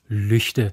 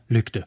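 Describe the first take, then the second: First: The consonant after the ü is not a plain g. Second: The consonant after the ü is a plain g. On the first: "sagen jetzt auch Lüchte" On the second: "und nicht mehr Lügde"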